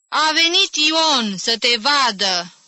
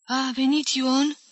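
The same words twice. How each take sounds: First: Slow, high call into a deaf ear; loud shout. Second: Put-on slow, high, lost old-woman question; bewildered mumble. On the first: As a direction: shout it slowly so the old woman hears. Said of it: "strigă tare în urechii tanti Mali". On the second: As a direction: ask it slowly, all confused. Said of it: "bolborosi rătăcită bătrâna". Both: A narrator's reading.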